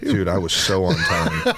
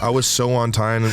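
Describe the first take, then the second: First: "so on time" said through a laugh. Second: "so" pushed hard, mock-proud; stress on so. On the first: Laughing as he insists to his co-host he was punctual. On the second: Repeating his boast to the co-host, pressing on "so". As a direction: lean on "so" in "I was so on time". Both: Real, not acted. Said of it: "I love that you keep emphasizing be on time".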